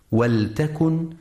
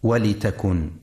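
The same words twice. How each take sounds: First: ولتكن with silent lam, waltakun; ولتكن said waltakun, no vowel on the lam; correct reading. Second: ولتكن with kasra on lam, walitakun; ولتكن misread walitakun, lam given an i; wrong reading demo. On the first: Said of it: "لسكون اللام وعدم كسرها". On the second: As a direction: show the error: ولتكن as walitakun. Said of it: "فلا يقرأ". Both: Shown as a demonstration.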